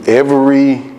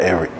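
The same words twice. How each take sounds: First: Each syllable is spoken separately and distinctly. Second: The syllables are run together quickly. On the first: "I said it with the syllables" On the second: "not every"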